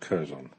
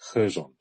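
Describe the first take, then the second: First: The word starts with a hard K sound. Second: The word starts without a K sound. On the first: The speaker calls it wrong. "instead of" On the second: The speaker calls it right. "It's a silent K"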